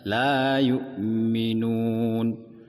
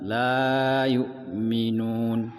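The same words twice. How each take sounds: First: The vowel of la is held two counts. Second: The vowel of la is held too long. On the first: The speaker calls it right. "La-nya panjang dua rakaat" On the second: The speaker calls it wrong. "dan bukan ... tidak lebih dari dua rakaat"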